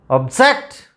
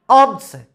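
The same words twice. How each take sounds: First: The stress is on the second syllable. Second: The stress is on the first syllable. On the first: The word is used as a verb. "So the second syllable is stressed there" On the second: The word is used as a noun. "So stress is given on ob, first syllable"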